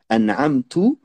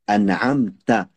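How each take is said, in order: First: The final syllable ends with a 'u' vowel. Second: The final syllable ends with an 'a' vowel. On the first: The favour is attributed to the speaker, 'I'. The speaker calls it wrong. "elle fait l'erreur de dire" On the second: The favour is attributed to the one addressed, 'you'. The speaker calls it right. "le ta, il y a une fatha dessus"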